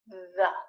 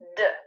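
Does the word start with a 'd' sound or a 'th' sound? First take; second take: th; d. First: It begins with a soft th sound. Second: It begins with a hard d sound. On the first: The speaker calls it right. "But instead, it should be the" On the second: The speaker calls it wrong. "saying D, like a D sound"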